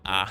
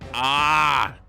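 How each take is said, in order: First: The ah is small and quiet. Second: The ah is bigger and louder.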